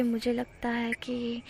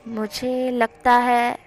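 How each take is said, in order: First: Drawn out and much softer, almost breathed; slow soft line. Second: Slow drawn-out line. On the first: Wing leaning in close to Wangji, slow and soft. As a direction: ease in slowly and drop the voice. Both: Acted. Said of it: "वो इस तरह से बोल रहा था".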